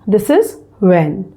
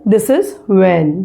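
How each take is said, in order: The two takes are said the same way.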